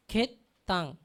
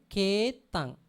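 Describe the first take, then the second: First: "Ketang" with a short e and a doubled, held t; wrong pronunciation. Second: Mock mistaken "Ketang" with a doubled t; wrong pronunciation. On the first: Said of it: "We cannot pronounce ketang". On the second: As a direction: stress "Ketang" as ket-tang, the t held long. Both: Shown as a demonstration.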